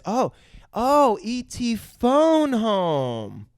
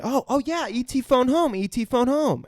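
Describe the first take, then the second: First: High, very slow dawning realization; Drew. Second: High, quicker excited repeating; Elliot. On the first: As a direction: stretch it out as a child working it out. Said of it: "before Elliot and says". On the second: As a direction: catch on eagerly, mock-excited. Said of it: "Elliot gets it and he repeats it". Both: Retold or imitated.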